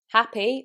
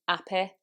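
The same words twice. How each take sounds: First: The word begins with an h sound. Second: The word begins without an h sound.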